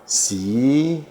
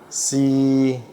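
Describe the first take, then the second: First: It is said in the second of six tones. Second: It is said in the third of six tones. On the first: "Yang kedua" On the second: "Yang ketiga"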